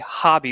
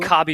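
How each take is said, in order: First: The name begins with an H sound. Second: The name begins with a K sound. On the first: The speaker calls it right. "You say Hobby Bullen. That's how you say it" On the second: The speaker calls it wrong. "You don't say Cobby Bullen"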